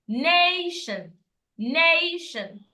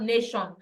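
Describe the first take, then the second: First: "nation" with a high, long stressed NAY; correct nation. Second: "nation" with a short, level first vowel; mispronounced nation. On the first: Teacher modelling for learners, "nation" correctly as high NAY-shun. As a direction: lift and stretch the first syllable of "nation". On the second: Teacher showing learners the wrong take, "nation" short and level. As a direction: say "nation" as an unstressed "neh-shon". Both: Shown as a demonstration. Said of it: "It's not nation".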